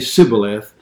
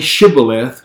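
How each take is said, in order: First: The word begins with an 's' sound. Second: The word begins with a 'sh' sound. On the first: The speaker is an Ephraimite. "had a dialectical difference. They could only say Sibboleth" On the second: The speaker is from the east-side people. "the people of that region could say Shibboleth"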